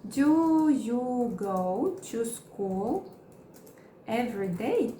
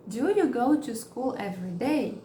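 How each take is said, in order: First: Very slow, split into chunks; slow broken-up teaching read; slow model question. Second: Said in the usual way. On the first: Shown as a demonstration. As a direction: say it slowly piece by piece. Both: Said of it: "Eu vou colocar do".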